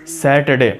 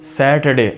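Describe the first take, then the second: No difference in how they are said.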